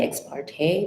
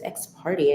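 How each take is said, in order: First: The second word ends with a 'tay' sound. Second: The second word sounds like 'party'. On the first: This is the speaker's own pronunciation. "I would say ex parte" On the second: Someone else pronounced it this way. "That's how he was pronouncing it"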